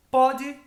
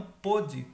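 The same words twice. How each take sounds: First: "Pode" with an open O, as in PAW-jee; present-tense "Pode", open first vowel. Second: "pôde" with a closed O, as in POH-jee; past-tense "pôde", closed first vowel. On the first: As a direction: punch "Pode" high and loud, open O. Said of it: "é presente". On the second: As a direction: round the O in "pôde". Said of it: "Pôde seria no passado". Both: Shown as a demonstration.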